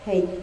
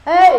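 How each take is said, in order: First: It is said at normal volume. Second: It is called out loudly.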